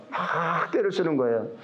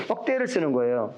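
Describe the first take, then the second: First: 막 held long before 떼를; stress on 막. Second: Said in the usual way. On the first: Real, not acted. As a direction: stretch 막 out for emphasis. Repeats phrase, stretching 막.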